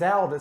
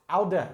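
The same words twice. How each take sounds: First: "oud" as one syllable, no final vowel; Dutch pronunciation. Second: "oude" in two syllables, ending in uh; Dutch pronunciation. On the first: Explaining Dutch words for old, "oud" said as one syllable. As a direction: say "oud" ending right on the d. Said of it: "two correct pronunciations and spellings". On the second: Explaining the alternate spelling, "oude" said with a final uh. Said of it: "they make that uh sound". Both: Shown as a demonstration.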